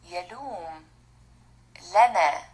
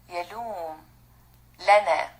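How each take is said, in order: Both takes have the same delivery.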